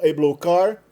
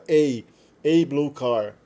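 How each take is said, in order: First: The article is a quick reduced 'uh' sound. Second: The article is a full 'ay' with a pause. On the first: "pode ser pronunciado a, quando é pronunciado muito rapidamente" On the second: "Quando você dá um pouquinho mais de pausa, tipicamente ele fica a"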